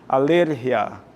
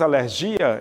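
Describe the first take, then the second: First: The stress is on the second syllable. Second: The stress is on the last syllable. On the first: "no espanhol é ler" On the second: "no português é dia"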